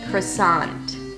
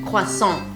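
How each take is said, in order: First: It is said with American English sounds. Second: It is said with French sounds. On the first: The speaker calls it right. "English, English" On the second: The speaker calls it wrong. "that was French"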